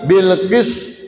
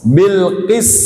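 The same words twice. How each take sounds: First: The s is said with rounded lips. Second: The s is said with spread lips. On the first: The speaker calls it wrong. "Bukan gini ... jadi monyong semua itu" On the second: The speaker calls it right. "beringis dulu"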